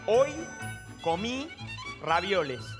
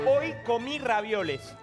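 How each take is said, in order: First: The phrase is spoken at a slower pace. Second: The phrase is spoken at a faster pace.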